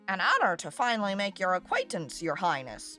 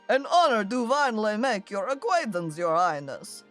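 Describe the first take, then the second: First: It is said in a non-vampire character voice. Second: It is said in a put-on vampire voice.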